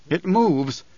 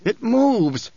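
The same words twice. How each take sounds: First: Higher-pitched, contained exclamation; first cry of dread, held back a little; awed alarm. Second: Much higher, intense exclamation; acted outburst leaping up in pitch; alarmed cry. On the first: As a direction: exclaim it with rising unease. Frightened cry after trembling breath. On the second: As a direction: cry it out in mounting dread. Same cry repeated, more intensely. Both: A narrator's reading.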